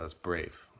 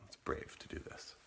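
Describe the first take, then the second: First: Said in the usual way. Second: Whispered. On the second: Shown as a demonstration.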